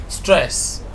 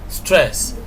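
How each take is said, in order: The two takes are said the same way.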